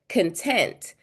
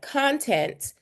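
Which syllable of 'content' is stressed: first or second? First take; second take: second; first. First: The stress is on the second syllable. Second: The stress is on the first syllable. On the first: It means being happy or satisfied. "that means I'm happy" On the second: It means material or stuff to read or watch. "that means like the stuff I would see in a book"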